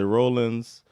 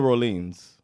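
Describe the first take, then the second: First: The first syllable sounds like 'roll'. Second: The first syllable does not sound like 'roll'. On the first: This is how most people say the name. The speaker calls it wrong. "A lot of people say Rollins" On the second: This is how the name is properly said. The speaker calls it right. "not many Rollins"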